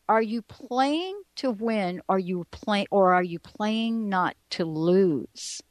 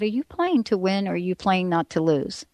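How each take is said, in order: First: The question is spoken slowly and deliberately. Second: The question is spoken at a normal pace.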